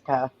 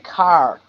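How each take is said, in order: First: The final R sound is dropped. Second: The final R sound is carefully pronounced. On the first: This is the speaker's natural everyday way. "but otherwise I just say" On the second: The speaker is consciously thinking about it. "I would say car if I'm thinking about it"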